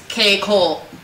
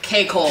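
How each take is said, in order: First: The name is said at a normal pace. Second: The name is said fast, run together.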